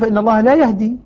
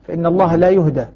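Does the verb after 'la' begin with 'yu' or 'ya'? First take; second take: ya; yu. First: The verb is said yahdi, with a then i. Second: The verb is said yuhda, with u then a. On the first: God does not guide the one led astray. "الباقون" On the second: The one led astray is not guided. "يهدى بضم الياء وفتح الدال"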